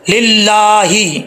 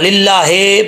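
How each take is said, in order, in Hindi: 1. आखिरी स्वर लंबी 'ee' ध्वनि है। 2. आखिरी स्वर 'e' ध्वनि है। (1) "हाज़िर ही है" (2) "लिल्लाहे पढ़ने की गलती हो जाएगी"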